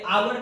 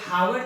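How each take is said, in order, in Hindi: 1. शब्द की शुरुआत स्वर ध्वनि से होती है। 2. शब्द की शुरुआत h ध्वनि से होती है। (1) "आवर पढ़ेंगे" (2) "इसे हावर तो नहीं पढ़ेंगे"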